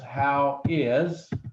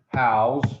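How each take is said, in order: First: It is said as two separate words. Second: It is run together into one syllable. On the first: "the actual term is how is" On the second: "in Texas we pronounce it hows"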